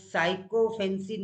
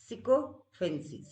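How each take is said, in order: First: The first syllable sounds like "sigh". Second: The first syllable sounds like "sick". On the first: The speaker calls it wrong. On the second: The speaker calls it right.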